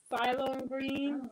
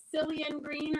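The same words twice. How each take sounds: First: Ceylon said slowly and deliberately, syllable by syllable; careful pronunciation. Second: Said in the usual way. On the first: Shown as a demonstration. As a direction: sound out Ceylon green slowly, trying it out. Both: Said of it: "I don't know how to pronounce it".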